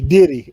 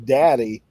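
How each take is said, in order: First: The first vowel sounds like the one in 'did'. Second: The first vowel sounds like the one in 'dad'. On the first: "like in Virginia, you hear is ... they say diddy" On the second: "instead of saying daddy"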